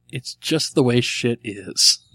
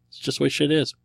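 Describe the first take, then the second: First: Slow, deliberate answer; slow reading. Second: "It's just the way shit is" quick and run together; punchline inflection. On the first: Real, not acted. Host reading a listener's punchline, slowly and deliberately. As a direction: spell it out slowly, word by word. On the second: Shown as a demonstration. Host demonstrating the riddle's answer, "It's just the way shit is" quick and offhand. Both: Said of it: "With the right inflection".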